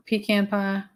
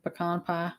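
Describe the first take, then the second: First: "pecan" with a long ee, then "can" as in tin can; PEE-kan for "pecan"; pee-can pronunciation. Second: "pecan" with a short first syllable and an open "kahn"; puh-KAHN for "pecan"; puh-kahn pronunciation. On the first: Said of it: "but sometimes I say". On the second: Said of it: "I think I say both". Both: Shown as a demonstration.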